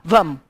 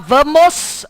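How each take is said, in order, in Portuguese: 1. A palavra termina sem som de s. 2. A palavra termina com som de s. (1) "Nós omitimos o S nas palavras" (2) "a gente não fala vamos"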